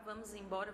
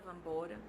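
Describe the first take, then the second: First: Every syllable is fully pronounced. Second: The words merge and lose sounds.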